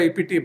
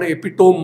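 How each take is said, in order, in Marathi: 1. हा शब्द 'tuh-mee' सारखा संपतो, चार शब्दांश. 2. हा शब्द 'tome' सारखा संपतो, तीन शब्दांश. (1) "उच्चार खरा एपिटीम आहे" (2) "ज्याला आपण एपिटोम म्हणतो"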